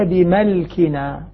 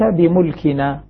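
First: The m is followed by the vowel a. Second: The m is followed by the vowel u. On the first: "يقرؤونها بالفتح" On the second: "بضم الميم"

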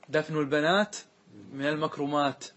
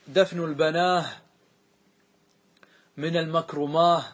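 First: The plural words end with t sounds. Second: The plural words end with h sounds. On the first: This is the standard form. "يعني" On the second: This is a rare dialect form. "سمع عن بعض العرب أنهم قالوا"

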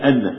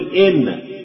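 First: The word begins with an 'a' vowel. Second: The word begins with an 'i' vowel. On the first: The speaker calls it wrong. "الناس تنسى ويقول أن، نقول له أستاذ غلط" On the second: The speaker calls it right. "لازم تقول إن"

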